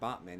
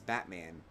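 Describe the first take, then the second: First: The first vowel sounds like the one in cot. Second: The first vowel sounds like the one in cat. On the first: The speaker calls it wrong. "It's not Botman" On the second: The speaker calls it right. "It's Batman"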